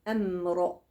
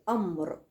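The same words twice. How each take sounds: First: The sounds before the r stay light. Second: The sounds before the r are made heavy. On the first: The speaker calls it right. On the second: The speaker calls it wrong.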